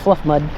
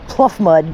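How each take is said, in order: First: The first word begins with an F sound. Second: The first word begins with a P sound. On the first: "but pronounce it fluff mud" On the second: "P L U F F"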